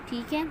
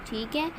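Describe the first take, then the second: Both takes have the same delivery.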